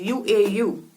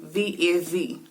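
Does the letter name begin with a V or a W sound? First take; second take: W; V. First: The name begins and ends with a w-like sound. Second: The name begins and ends with a v sound. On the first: This is the ancient pronunciation. "it was formerly a U and always held the O sound" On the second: This is the modern pronunciation. "as opposed to it being a V now"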